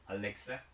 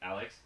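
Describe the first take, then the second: First: The name ends with an extra vowel sound. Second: The name ends on a consonant sound. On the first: "in Korean never Alex. I'm Alexa. So there's always the additional E" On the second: "like my name is like Alex"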